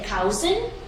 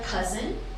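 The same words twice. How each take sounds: First: The first vowel sounds like the vowel in 'cow'. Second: The first vowel sounds like the vowel in 'cup'. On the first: The speaker calls it wrong. "a lot of people say cousin. It's not brown cow" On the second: The speaker calls it right. "it's cup of mustard cousin"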